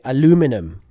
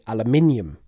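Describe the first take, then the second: First: It is said the American way. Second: It is said the British way. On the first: "Americans tend to say" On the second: "and we say"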